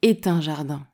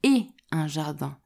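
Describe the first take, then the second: First: A linking t sound joins the first two words. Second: No linking sound joins the first two words. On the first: The speaker calls it wrong. "Tu ne peux pas dire" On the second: The speaker calls it right. "sans faire la liaison"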